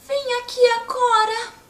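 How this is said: It is said like a tiny ant.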